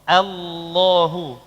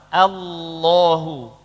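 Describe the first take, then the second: First: The opening hamzah vowel sounds light and thin. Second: The same.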